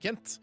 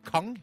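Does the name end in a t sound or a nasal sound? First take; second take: t sound; nasal sound. First: The name ends with a clear t sound. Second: The name ends nasally, French style, without t.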